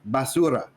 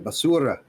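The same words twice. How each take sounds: First: The R is said plain, not rolled. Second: The R is said with a roll.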